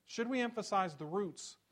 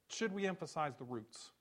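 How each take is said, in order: First: We lifted higher and pressed, Should we emphasize the roots; stress on we. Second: Said in the usual way. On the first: Shown as a demonstration. Pastor repeating the question to the church, stressing we. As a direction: lean on the word we and raise the pitch.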